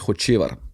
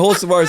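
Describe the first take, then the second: First: The name is said with Slovenian sounds. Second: The name is said with English sounds. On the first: "The the way you actually pronounce it in Slovenia is Hocevar" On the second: "that's the uh, the U S slash English version"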